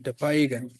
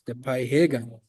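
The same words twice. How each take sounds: First: It is said quickly, the I barely heard. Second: It is said carefully, stressing the H. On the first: "if you say it fluently" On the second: "if you want to enunciate it"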